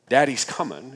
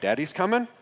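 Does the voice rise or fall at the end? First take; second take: fall; rise. First: The voice falls at the end, like a statement. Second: The voice rises at the end, like a question.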